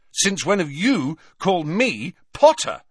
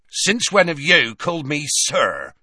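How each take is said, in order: First: High-pitched comeback ending on "Potter"; indignant retort. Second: Loud, high indignant challenge ending on "sir"; indignant Hagrid. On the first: Harry answering Hagrid's challenge, indignant retort. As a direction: throw "Potter" back at him. Harry throws the question back. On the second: Hagrid stunned at being called sir, indignant. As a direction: throw "sir" back in disbelief. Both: A narrator's reading.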